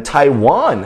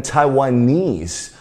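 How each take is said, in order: First: "Taiwan" with the stress on WAN; teacher's demo of tai-WAN; contrasting word stress. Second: "Taiwanese" with the stress on NESE; teacher's demo of tai-wa-NESE; contrasting word stress. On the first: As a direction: lean on the final syllable of "Taiwan". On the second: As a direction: lean on the final syllable of "Taiwanese". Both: Shown as a demonstration. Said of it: "音节也不一样".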